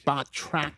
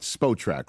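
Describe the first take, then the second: First: The first word is said with a final t. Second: The first word is said without a final t. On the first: The speaker calls it right. "It's Spot Track" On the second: The speaker calls it wrong. "It's not Spo Track, right?"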